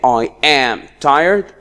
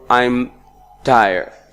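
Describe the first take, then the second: First: Am is said fully as a separate word. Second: Am is contracted and joined to I.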